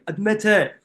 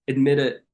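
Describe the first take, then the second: First: It is said in a copied British accent. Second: It is said in a normal accent.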